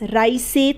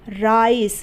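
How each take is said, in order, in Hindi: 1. शब्द के अंत में एक अतिरिक्त स्वर ध्वनि है। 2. शब्द के अंत में s के बाद कोई स्वर ध्वनि नहीं है। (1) "राइस से तो नहीं बोल रहे ना आप"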